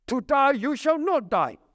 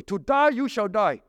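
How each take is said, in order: First: "not" hit hard and held; stress on not. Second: Said in the usual way. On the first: Shown as a demonstration. Satan twists God's words, stressing the added "not". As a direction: punch the inserted "not". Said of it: "add the negative right in between". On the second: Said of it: "Hebrew phrase, literally".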